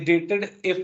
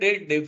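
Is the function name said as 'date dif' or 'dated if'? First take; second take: dated if; date dif. First: It is split as 'dated' plus 'if'. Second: It is split as 'date' plus 'dif'. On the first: The speaker calls it wrong. "ये डेटेड इफ नहीं" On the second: The speaker calls it right. "आप कह रहे हो डेट डिफ है"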